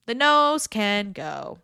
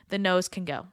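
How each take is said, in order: First: Slow and louder, each word landed; slow emphatic repeat. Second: Said in the usual way. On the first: Shown as a demonstration. Coach to listener, slow emphatic repeat. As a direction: drive the rhyme home slowly.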